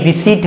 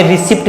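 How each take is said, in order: First: "रिसीट" with silent p and long ee; "रिसीट" ending in a plain t; correct pronunciation. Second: "रिसिप्ट" with the p sounded; "रिसिप्ट" with an audible p; wrong pronunciation. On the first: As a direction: say "रिसीट" as ri-SEET, no p. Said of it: "रिसीट है". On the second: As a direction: say "रिसिप्ट" wrongly, voicing a p before the t. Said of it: "ये रिसिप्ट नहीं". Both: Shown as a demonstration.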